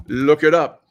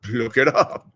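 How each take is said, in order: First: Louder, insistent second look it up; urging them to check it themselves; emphatic repeat. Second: Said in the usual way. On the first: Shown as a demonstration. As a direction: push it at the audience.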